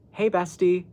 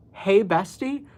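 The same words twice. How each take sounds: First: Said in the usual way. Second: "Hey, bestie?" repeated with a disbelieving rise; baffled rising "Hey, bestie?"; incredulous. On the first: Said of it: "he texts me". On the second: Real, not acted. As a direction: echo it back in disbelief.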